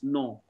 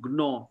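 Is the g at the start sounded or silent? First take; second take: silent; sounded. First: The word begins directly with an n sound. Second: The word begins with a hard g sound. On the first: The speaker calls it right. "it's NAW" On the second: The speaker calls it wrong. "It's not GNAW"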